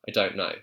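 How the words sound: It is said in a South London RP accent. "with my South London R P accent, would say don't know"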